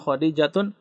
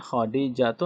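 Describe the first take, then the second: First: The name ends with an added n sound. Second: The name ends on a plain vowel. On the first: The speaker calls it wrong. "nama perempuan itu tidak boleh tan tanwin" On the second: The speaker calls it right.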